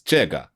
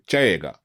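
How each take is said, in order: First: The first vowel is a single plain vowel. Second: The first vowel glides as a thick diphthong. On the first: This is the standard textbook form. "in your textbook it says 这个" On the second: This is how people in Beijing say it. "it almost becomes a diphthong, where you have two vowel sounds stuck together"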